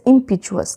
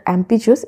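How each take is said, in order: First: The word begins with an 'im' sound. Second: The word begins with an 'em' sound. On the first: The speaker calls it right. "It's इम्पिचुअस" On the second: The speaker calls it wrong. "Sorry not एम्पिचुअस"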